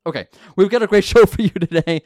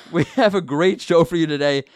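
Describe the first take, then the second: First: Giggling through the intro line; laughing. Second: Said in the usual way. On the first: Real, not acted. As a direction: breaks into a laugh mid-sentence. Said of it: "It's like my least favorite part of the show". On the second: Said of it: "my least favorite part of the show".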